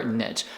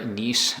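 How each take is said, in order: First: Second niche said as "nitch"; second niche rhyming with pitch; alternative pronunciation. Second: First niche said as "neesh"; first niche rhyming with leash; alternative pronunciation. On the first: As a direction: say the second niche with a short i and tch. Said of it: "which is how I pronounce it". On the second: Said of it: "saying that it's pronounced niche". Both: Shown as a demonstration.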